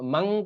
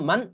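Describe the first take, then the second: First: The final n becomes a nasal ng sound. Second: The final n is pronounced clearly. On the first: The speaker calls it wrong. "মাং মাং পড়া যাবে না" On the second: The speaker calls it right. "মান আম্বাকা এরকম পড়তে হবে"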